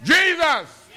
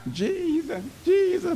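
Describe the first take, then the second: First: High shouted cry of "Jesus!"; crying out loud. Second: High, soft pleading cry; crying out to Jesus. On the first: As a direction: call out "Jesus!" high and full voice. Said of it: "you need to make it known". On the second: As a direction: plead upward in a thin high voice, almost breaking. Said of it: "You need to cry out". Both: Shown as a demonstration.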